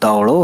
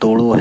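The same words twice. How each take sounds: First: The first syllable has an 'au' vowel. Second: The first syllable has a plain 'o' vowel. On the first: The speaker calls it right. "दौड़ो है" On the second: The speaker calls it wrong. "दाल पेश दो पढ़ते हो ... कोई word दौड़ो है ही नहीं, गलत भी लग रहा है"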